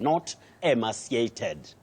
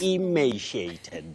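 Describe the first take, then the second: First: The second syllable does not sound like 'may'. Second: The second syllable sounds like 'may'. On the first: The speaker calls it wrong. "not the way to pronounce that word" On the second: The speaker calls it right. "you start with E, then may"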